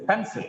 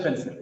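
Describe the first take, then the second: First: "pencil" with a weighted PEN and falling end; PEN-sil, front-stressed; stress on first syllable. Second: Said in the usual way. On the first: Shown as a demonstration. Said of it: "The stress is on first syllable". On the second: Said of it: "it's not just pencil".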